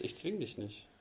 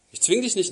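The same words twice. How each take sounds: First: Dropped to a soft, almost private aside. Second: Same words again, louder and firmer, leaning on zwing; louder restatement. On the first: Preacher telling the sinner gently he won't force him, softly. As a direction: let it fall away softly. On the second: Preacher insisting to the congregation that God forces no one, firmly. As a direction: come back firmly on zwing. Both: Real, not acted.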